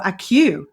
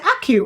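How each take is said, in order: First: "Acu" as two parts, a-CUE; alternative pronunciation. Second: "Aku" said like the start of accuracy. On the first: Host offering guest the other pronunciation, "Acu" as a-CUE. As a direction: stress the second syllable of "Acu", like cue. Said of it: "I meant to check before". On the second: Host checking the company name with guest, "Aku" as in accuracy. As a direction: stress the first syllable of "Aku". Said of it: "it's the beginning of the word accuracy". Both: Shown as a demonstration.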